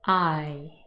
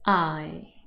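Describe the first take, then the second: Both takes have the same delivery.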